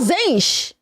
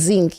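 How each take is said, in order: First: It ends with an sh sound, like channel. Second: It ends with a k sound, like the metal. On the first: The speaker calls it right. "end it with a C H like channel" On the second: The speaker calls it wrong. "you're calling them zinc like the metal?"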